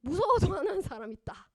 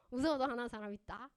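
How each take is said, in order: First: 무서워도 punched loud and high; 무서워도 stressed, louder take; emphatic. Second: Said in the usual way. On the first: Shown as a demonstration. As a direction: lean hard on 무서워도 with a loud fall. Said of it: "repeated line, loud take". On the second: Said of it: "repeated line, plain take".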